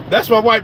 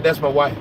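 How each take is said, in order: First: "That's my wife" said louder the second time, weight on "my"; proud repeat. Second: Said in the usual way. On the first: Retold or imitated. To the listeners about his girl in her old dress, louder proud claim. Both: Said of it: "I said".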